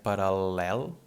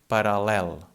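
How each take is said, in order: First: The middle L sound is held long. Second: The middle L sound is short and plain. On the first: This is how it was said long ago. "this was pronounced like a long L" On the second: This is how it is said today. "this doesn't change the sound. It's just like a normal L"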